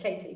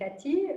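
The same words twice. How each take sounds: First: The name is said with an English pronunciation. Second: The name is said with a French pronunciation. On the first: This is how British family and friends say the name. "all my British parents and family and friends call me Katie" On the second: This is how French friends say the name. "in France, all my friends call me Katie"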